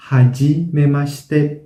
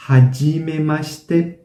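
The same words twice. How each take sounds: The two takes are said the same way.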